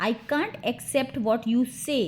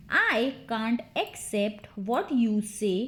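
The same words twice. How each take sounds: First: Said in the usual way. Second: Slow, word-by-word teaching take; measured, deliberate drill model; slow repeat. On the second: Shown as a demonstration. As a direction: space the words out for learners. Drill, slower repeat for learners.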